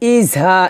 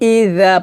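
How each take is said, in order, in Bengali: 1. এই ব্যঞ্জনটি দাঁতের কাছে পাতলা উচ্চারণ নয়। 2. ব্যঞ্জনটি পাতলা, জিব উপরের দাঁতে লাগানো। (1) "এটা না" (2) "পাতলা হবে"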